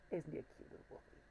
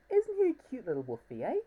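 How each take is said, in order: First: Quick, hushed whisper; whispered aside. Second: Put-on high, sing-song baby talk; cutesy cooing. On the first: Acted. Whispering the same words to the plush wolf. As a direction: whisper it fast like a secret. Repeats the line to the toy. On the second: Showing off his new plush wolf, high cutesy coo. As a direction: coo over the toy like a pet.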